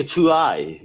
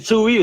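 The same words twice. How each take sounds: First: "Chewie" said choo-EYE; joke mispronunciation. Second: "Chewie" said CHOO-ee; usual pronunciation. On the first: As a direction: end "Chewie" on a long "eye". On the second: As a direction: end "Chewie" on an "ee". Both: Shown as a demonstration. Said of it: "is it Chewie or Chewie?".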